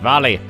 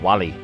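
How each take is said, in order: First: The word begins with a V sound. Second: The word begins with a W sound. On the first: The speaker calls it wrong. "I always end up pronouncing it German" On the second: The speaker calls it right. "Instead of Wally"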